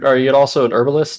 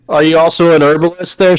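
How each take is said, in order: First: It is said quietly. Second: It is said loudly, almost yelled.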